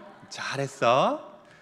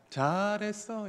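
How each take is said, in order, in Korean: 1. 웃으면서 따뜻하게 말합니다. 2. 웃지 않고 무덤덤하게 말합니다. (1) "웃으면서 하셔야 되죠" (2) "이건 아니죠"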